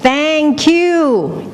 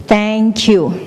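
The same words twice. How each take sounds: First: High, long calling out; cliff-top shout. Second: Echo shouting back. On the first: Someone on a cliff shouting thanks, high call. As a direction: sing it out across the valley. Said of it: "you stand on top of a cliff". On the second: The world shouts thanks back, even echo. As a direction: echo with a falling end. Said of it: "It will shout back". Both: Acted.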